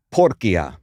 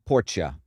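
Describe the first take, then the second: First: "Porcia" with a hard k, POR-kee-a; classical Latin pronunciation. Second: "Porcia" with a soft ch, POR-cha; ecclesiastical Latin pronunciation. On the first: Quiz contestant giving the classical Latin answer, hard-k "Porcia". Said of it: "Classical Latin". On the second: Quiz contestant offering church Latin, soft-ch "Porcia". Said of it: "I'd go ecclesiastical". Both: Shown as a demonstration.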